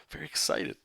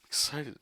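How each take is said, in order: First: Mock deadpan. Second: Said in the usual way. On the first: Deadpan then re-said brightly.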